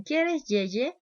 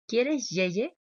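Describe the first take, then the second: First: ¿Quieres yeye? alto, agudo y fuerte; voz de bebé. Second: Repitiendo calmada. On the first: Retold or imitated. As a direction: imita al adulto que habla como bebé. Adulto usa lenguaje de bebé. ("¿Quieres yeye?" aniñado y agudo) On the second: Shown as a demonstration. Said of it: "le puedo repetir su palabrita".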